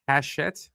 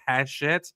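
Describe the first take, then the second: First: It is said with an sh sound. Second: The same.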